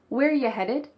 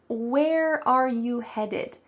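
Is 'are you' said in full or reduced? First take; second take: reduced; full. First: 'Are' is dropped and 'you' becomes 'ya'. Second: Every word, including 'are you', is said fully. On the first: "We cut out the verb are and we reduce you to ya" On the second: "You might hear"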